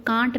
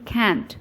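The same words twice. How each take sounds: First: "can't" with a long "ah", like "kaant"; British pronunciation. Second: "can't" with the flat "a" of "cat"; American pronunciation. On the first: Teacher warns learners off this form, British "kaant" for "can't". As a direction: say "can't" the British way, vowel as in "father". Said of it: "can't पढ़ते हैं British". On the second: Teacher has learners follow Americans, American "can't" with short-a. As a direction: say "can't" as Americans do, rhyming with "ant". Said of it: "American की तरह से बोलेंगे". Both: Shown as a demonstration.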